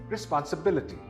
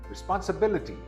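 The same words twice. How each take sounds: No difference in how they are said.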